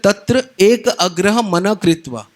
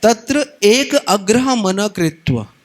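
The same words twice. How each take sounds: First: Slow, measured Sanskrit recitation; scripture recitation. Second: Slow, intoned Sanskrit recitation; verse recitation. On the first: Preacher reciting the Gita verse to the congregation, slow and measured. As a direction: chant the verse deliberately. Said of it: "भगवान बोलते हैं". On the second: Preacher reciting the verse once more, slow and intoned. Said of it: "एकाग्रता का मतलब क्या होता है". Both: Shown as a demonstration.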